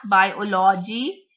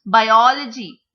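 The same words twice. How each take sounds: First: BIOLOGY as bi-o-LO-gy, weight on LO; wrong third-syllable stress. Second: BIOLOGY as bi-OL-ogy, OL loud and stretched; second-syllable stress. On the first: Teacher showing another wrong way, third syllable stressed. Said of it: "it is not biology". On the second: Teacher showing what it is, second syllable stressed. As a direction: punch the OL of "biology". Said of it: "it is biology". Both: Shown as a demonstration.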